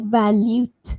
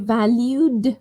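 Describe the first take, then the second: First: The word ends with a voiceless T sound. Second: The word ends with a voiced D sound. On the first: The speaker calls it wrong. "valued with a T" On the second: The speaker calls it right. "valued with a D"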